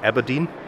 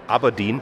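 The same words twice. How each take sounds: First: The first 'A' is said as another vowel. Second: The first 'A' is said as an open 'ah'. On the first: The speaker calls it wrong. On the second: The speaker calls it right. "weil ein A im Schottischen tatsächlich wie ein A ausgesprochen wird"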